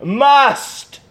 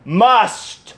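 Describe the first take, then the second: First: "Must." higher and stronger on the repeat; insistent echo of "Must."; emphatic repeat. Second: "Must." said alone, weighty and final after a pause; lone solemn "Must."; reveal word. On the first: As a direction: hammer "Must." home the second time. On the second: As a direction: drop "Must." as the answer. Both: Shown as a demonstration. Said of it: "You know what it is?".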